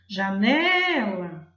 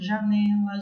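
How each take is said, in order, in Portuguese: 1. A palavra é dita em voz alta, com a sílaba do meio mais forte. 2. A palavra é pronunciada de forma simples, sem ênfase marcada. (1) "eu chamo assim, ... o né ficou mais forte" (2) "Difícil de perceber qual é a sílaba pronunciada mais forte"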